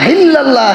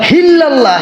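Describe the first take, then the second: The two takes are said the same way.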